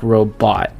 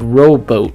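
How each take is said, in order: First: The second syllable has a softer O vowel. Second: The second syllable has a long O vowel. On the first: "a softer O" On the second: "pronounced the long O"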